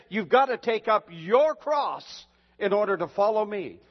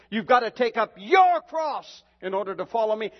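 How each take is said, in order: First: Said in the usual way. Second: Louder and higher, thundering the call; shouted repeat. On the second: Retold or imitated. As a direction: hammer the quote home to the congregation. Repeats Jesus' words, shouted.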